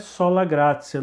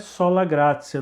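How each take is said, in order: First: The t in gratia sounds like s. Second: The same.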